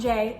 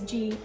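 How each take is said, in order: First: The letter is named with an English 'jay' sound. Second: The letter is named with a French 'zhee' sound. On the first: The speaker calls it wrong. "J is not J" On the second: The speaker calls it right. "it is G, and it is a different sound altogether"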